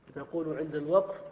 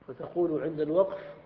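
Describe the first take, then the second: Both takes have the same delivery.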